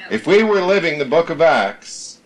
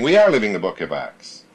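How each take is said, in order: First: Said in the usual way. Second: "are" lifted above the rest; stress on ARE. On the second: Real, not acted. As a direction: correct it firmly by stressing "are". Corrects hypothetical to present fact.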